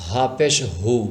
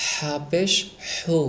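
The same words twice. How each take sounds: First: হা and হু with the throat released; open-throated h. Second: Breathy, rasped-air h in হু; airy throat h. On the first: Teacher contrasts two letters, open-throated হু. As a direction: let হু out freely, throat open. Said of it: "গলা ছেড়ে". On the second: Teacher shows how, airy throat h in হু. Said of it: "গলা দিয়ে বের করতে হবে এভাবে". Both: Shown as a demonstration.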